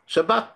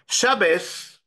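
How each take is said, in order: First: The word ends with a t sound. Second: The word ends with an s sound.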